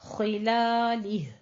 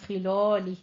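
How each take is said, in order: First: The vowel after 'l' is thin and open. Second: The vowel after 'l' is heavy and rounded. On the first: The speaker calls it right. "लाम बारीक रहना चाहिए" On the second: The speaker calls it wrong. "खिलौलिह नहीं कहना"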